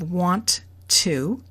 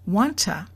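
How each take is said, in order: First: Both words are said fully, with the T. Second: The T stays and the vowel becomes a. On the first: "It is said exactly the way it's written" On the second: "The vowel oo has become a"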